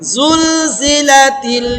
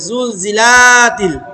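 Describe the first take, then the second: First: The vowel in 'la' is kept short. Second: The vowel in 'la' is drawn out long. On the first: The speaker calls it right. "এটা টান হবে না।" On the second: The speaker calls it wrong. "অনেকে আমরা এই লাতে টান দিয়ে ফেলে"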